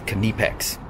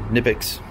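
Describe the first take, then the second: First: It is said the German way. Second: It is said the English-speaking way. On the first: The speaker calls it right. "German, it's Knipex" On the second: The speaker calls it wrong. "well English speaking world Knipex"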